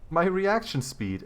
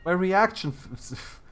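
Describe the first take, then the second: First: "my reaction speed" said higher and slow through a laugh. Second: Said in the usual way. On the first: Real, not acted. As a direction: let a laugh break through the words. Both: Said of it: "it failed me".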